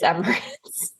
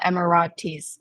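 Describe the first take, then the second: First: The word ends with an 'ates' sound. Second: The word ends with an 'eetees' sound. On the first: The speaker calls it right. "It's Emirates in London" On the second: The speaker calls it wrong. "which I learned is not the Emiratis Stadium"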